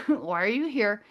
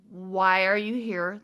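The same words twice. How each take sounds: First: Said in the usual way. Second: Slow, measured question with rising end; polite questioning. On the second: Retold or imitated. Teller asking aliens their purpose, slow careful politeness. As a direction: ask it with careful, drawn-out politeness. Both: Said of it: "my most polite way to put it".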